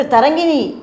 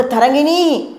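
First: Raised, higher call across the water; calling a bit louder. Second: High, anxious shout of her name; loud fearful cry. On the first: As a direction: call her name a little louder, worried. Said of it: "கொஞ்சம் சத்தம் போட்டு". (கொஞ்சம் உரக்க அழைப்பு) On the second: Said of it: "உரக்க கூவினார் Cheraman". (பயத்துடன் உரக்கக் கூவல்) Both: A narrator's reading.

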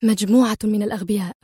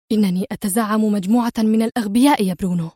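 First: Fast, mildly sharp scorn. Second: Mild exasperated scorn, falling on الأغبياء; sharp. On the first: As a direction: spit it out quickly, irritated. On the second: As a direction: lean on الأغبياء in disgust. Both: Acted. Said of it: "وهي تقول في حدة".

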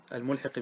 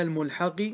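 First: الملحق said al-mulhiqi, i after ح; lower, careful الملحق as al-mulhiqi; kasra on the ha. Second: Said in the usual way. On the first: Shown as a demonstration. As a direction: correct الملحق to an i vowel on ح. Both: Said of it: "الملحق بكسر الحاء".

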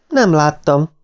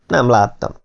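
First: Higher-pitched mild protest; insistent. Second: Said in the usual way. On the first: A narrator's reading. (magasabb hangon bizonygatva) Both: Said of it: "bizonygatta Martin".

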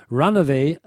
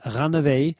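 First: Said in the usual way. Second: "Runaway" with German r and Ä; German phonetic spelling. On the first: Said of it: "folgender Aussprachehinweis gegeben". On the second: Shown as a demonstration. Explaining the spelling hint to dealers, German-style pronunciation. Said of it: "mit Doppel-N auch wieder und Ä".

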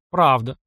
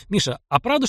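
First: Правда said with a short falling tune; a calm, falling Правда; simple confirmation. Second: Правда asked with a rising tune; curious, rising правда; sudden question. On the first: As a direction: drop правда down as a firm yes. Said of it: "кивнул Мишка". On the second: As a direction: lift the end of правда as a question. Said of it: "неожиданно спросил он". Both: A narrator's reading.

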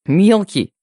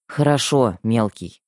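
First: Indignant echo, higher and louder; huffy, affronted little-brother protest; displeased snort. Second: Mildly resigned agreement, dropping away at the end; understated weary concession; sighing. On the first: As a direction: throw the nickname back, offended. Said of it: "недовольно фыркнул брат". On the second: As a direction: give in to little brother with a sigh. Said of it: "вздохнула я". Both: A narrator's reading.

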